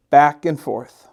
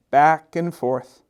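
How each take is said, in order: Both takes have the same delivery.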